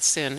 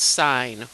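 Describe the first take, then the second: First: The word sounds like 'sin'. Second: The word sounds like 'sign'. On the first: The speaker calls it wrong. "It's not sin" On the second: The speaker calls it right. "it's sine. We say sine"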